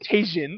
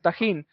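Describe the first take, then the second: First: The word is said with an English-style pronunciation. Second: The word is said with a Spanish-style pronunciation. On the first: The speaker calls it wrong. "you did not just call this beautiful thing Tajin" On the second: The speaker calls it right. "So how do you pronounce it? It's like tajin"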